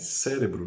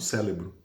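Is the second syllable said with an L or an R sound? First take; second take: R; L. First: The second syllable has an R sound. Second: The second syllable has an L sound. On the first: The speaker calls it right. "É cérebro" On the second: The speaker calls it wrong. "não cérebro"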